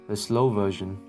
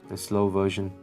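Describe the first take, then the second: Both takes have the same delivery.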